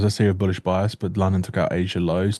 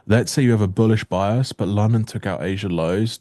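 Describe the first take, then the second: First: It is said at a quicker pace. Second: It is said at a slower pace.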